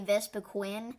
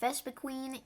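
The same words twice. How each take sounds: First: The last syllable does not sound like 'queen'. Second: The last syllable sounds like 'queen'. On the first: The speaker calls it wrong. "that is not the right way to pronounce it" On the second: The speaker calls it right. "There is Queen in the name"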